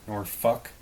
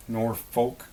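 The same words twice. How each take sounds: First: "Norfolk" ending like "fuck"; "Norfolk" with a short UH in the second syllable; reduced second syllable. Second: "Norfolk" ending like "folk"; "Norfolk" with a rounded OH in the second syllable; full second syllable. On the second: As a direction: say "Norfolk" with a long O, as NOR-foke. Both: Shown as a demonstration. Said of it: "however you pronounce it".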